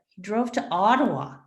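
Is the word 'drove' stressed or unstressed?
unstressed. The stress falls away from the word drove. The speaker calls it wrong. "It sounds unnatural"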